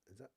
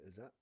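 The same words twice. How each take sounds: The two takes are said the same way.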